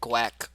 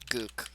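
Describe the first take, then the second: First: The name starts with a gw sound. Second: The name has an oo vowel sound. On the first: "Everyone says like Gweck"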